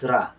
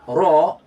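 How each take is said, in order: First: The syllable is light with an open vowel. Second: The syllable is heavy with a rounded vowel. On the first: The speaker calls it wrong. "not ra" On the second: The speaker calls it right. "in a state of tafkhim, it's pronounced as ro"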